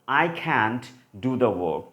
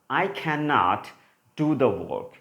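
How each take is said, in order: First: The word cannot is contracted to can't. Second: The word cannot is said in full. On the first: "if you want to use the contracted form of cannot" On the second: "one sentence is for cannot"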